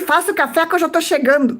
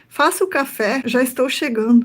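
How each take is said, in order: First: It is said as a harsh, bossy order. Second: It is said as a friendly, gentle request. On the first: The writer is ordering her around. The speaker calls it wrong. "a entonação que você cria na tua cabeça já é de crítica" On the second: The writer is kindly announcing his arrival. The speaker calls it right. "ele tá dizendo assim"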